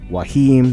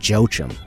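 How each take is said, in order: First: The name begins with a W sound. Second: The name begins with a J sound. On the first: The speaker calls it right. "but it's Wahim" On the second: The speaker calls it wrong. "Made the mistake of pronouncing it Joachim"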